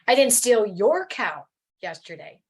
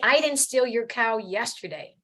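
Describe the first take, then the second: First: The stress is on the word your. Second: The stress is on the word yesterday.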